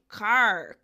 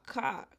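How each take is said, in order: First: It has an American accent with final R. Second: It has a British accent without final R.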